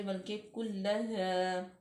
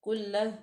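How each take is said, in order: First: कुल्लहा with the final aa held a little longer; stretched madd. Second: कुल्लह clipped, the final alif not stretched; wrong way. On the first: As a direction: draw out the last aa of कुल्लहा. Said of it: "थोड़ा सा खींचेंगे मद्दा की मिकदार को". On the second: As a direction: cut कुल्लह short. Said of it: "कुल्लहा सुम्मा नहीं करेंगे". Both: Shown as a demonstration.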